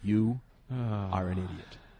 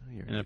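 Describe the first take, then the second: First: The phrase is spoken at a very slow pace. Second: The phrase is spoken at a quick pace.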